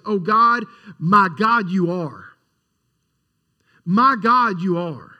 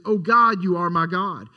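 First: Louder on O God and each My God, a long pause before the repeat; emphatic. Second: Said in the usual way. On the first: Shown as a demonstration. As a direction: declare O God, my God, you are, with a firm fall on you are. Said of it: "a little bit more of an emphatic statement". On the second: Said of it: "in my Bible, I have a New King James, it says".

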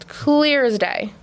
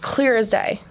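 First: "clear" held long for emphasis; slow, emphatic CLEAR as day; drawn-out emphasis. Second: Said in the usual way. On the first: Real, not acted. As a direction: stretch CLEAR out slowly. Repeats phrase for emphasis.

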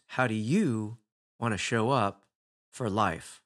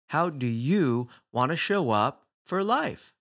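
First: Said in the usual way. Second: Slow and deliberate, leaning on life; slow, weighty question. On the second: Shown as a demonstration. Speaker to audience, letting the question land slowly. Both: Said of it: "You get to say".

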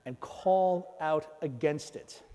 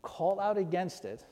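First: Slow, rising weight on "call out against it"; stress on call out. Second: "out" stressed with a falling close; repeated emphasis. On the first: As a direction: lean slowly on "call out". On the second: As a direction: repeat it landing on "out". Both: Shown as a demonstration. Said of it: "Did you catch that?".

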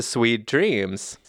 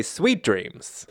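First: Said in the usual way. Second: "Sweet" punched high, falling on "dreams"; imitating a co-host's emphatic "Sweet"; stress on SWEET. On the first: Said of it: "as opposed to". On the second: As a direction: lean hard on the word "Sweet", pitched up. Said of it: "You put the emphasis on that syllable".

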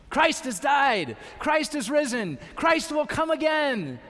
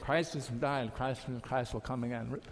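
First: Higher, louder, triumphant proclamation; proclaimed loud. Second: Lower, softer, dutiful box-ticking mumble; just going through the motions; mumbled by rote. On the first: Preacher showing the congregation how to proclaim it, shouting. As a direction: ring it out like a shout of victory. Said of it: "Say it like that when you say it". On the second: Preacher mocking a half-hearted liturgy response, mumbling. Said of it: "That's not the point". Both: Shown as a demonstration.

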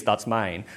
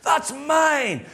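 First: Said in the usual way. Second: Put-on high-pitched little child's protest; mock child's whine, pitched right up; possessive three-year-old. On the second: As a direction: claim it like an indignant toddler. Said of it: "Grace walks over, says".

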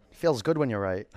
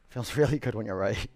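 First: Said in the usual way. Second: Chuckling through the words; laughing. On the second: Real, not acted. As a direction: laugh as you say it. Repeats phrase with a laugh.

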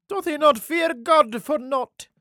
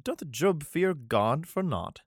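First: Much higher and louder, a squeaky mocking question. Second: Said in the usual way. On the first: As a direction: jeer it in a high falsetto. Same verse redone in voice.

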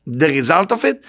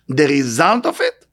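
No difference in how they are said.

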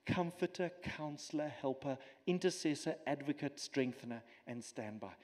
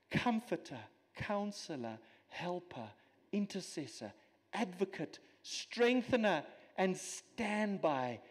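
First: Softer, lower, "comforter" to "standby" fading away; trailing reverent recital, down to a murmur on "standby"; quiet awed list. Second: Each name set apart slowly, "strengthener" and "standby" drawn out; careful enumeration, each word landing with a fall; slow deliberate list. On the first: Real, not acted. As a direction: let the titles sink into hushed wonder. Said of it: "I will not be able to unpack". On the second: Shown as a demonstration. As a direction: weigh every title one by one. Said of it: "Folks, seven words".

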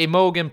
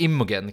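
First: Imogen said as EYE-mogen; long i opening, Imogen as EYE-mogen; first pronunciation. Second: Imogen said as IM-mogen; short i opening, Imogen as IM-mogen; alternative pronunciation. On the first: Podcaster unsure of the actress's name, Imogen as EYE-mogen. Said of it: "tror jag man säger det". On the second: Podcaster trying another reading of the name, Imogen as IM-mogen. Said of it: "kanske man säger". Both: Shown as a demonstration.

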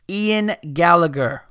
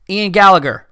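First: Said in the usual way. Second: Announcer voice. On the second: Acted. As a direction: announce the name like a host. Announcing the submitter's name.

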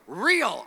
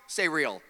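First: A loud proclaimed "Real"; preacher calling "Real" for the church to echo; called-out response. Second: Said in the usual way. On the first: Shown as a demonstration. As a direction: shout "Real" back like a congregation.

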